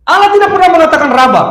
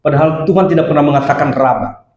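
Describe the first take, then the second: First: High, fast, forceful preaching; emphatic repetition. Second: Said in the usual way. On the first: Real, not acted. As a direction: hammer the point home at raised pitch. Repeats the point forcefully for emphasis. (tegas, cepat, bernada tinggi)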